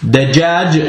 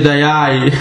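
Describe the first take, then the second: First: The word has J sounds, as in jam. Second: The J sounds are replaced by Y sounds. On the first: This is the standard Arabic form. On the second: This is a regional dialect form.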